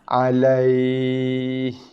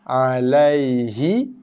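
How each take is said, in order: First: It ends on a consonant, with a lengthened diphthong. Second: It ends with a short final vowel. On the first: The reading stops at this word. "Huruf akhir dibaca dengan baris sukun. Huruf lin tadi dibaca dengan mad lin" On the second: The reading continues without stopping. "bacaan asalnya ialah alaihi"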